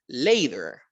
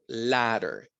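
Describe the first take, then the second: First: The first vowel is long, like the letter A. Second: The first vowel is short and clipped. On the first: The speaker calls it wrong. "completamente incorrecto que yo esta A le quiera poner un sonido de A" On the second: The speaker calls it right. "Vean que la A tiene un sonido corto"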